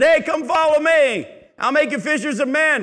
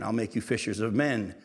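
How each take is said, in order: First: Mock yell. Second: Said in the usual way. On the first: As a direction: holler the call the way we always imagined it. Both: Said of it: "We always read it that he yelled it".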